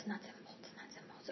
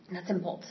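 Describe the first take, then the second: First: Trailing off into a whisper to herself; fading whisper. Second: Said in the usual way. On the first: Real, not acted. Regathering her thoughts mid-story, fading whisper. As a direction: mutter it under the breath until it vanishes.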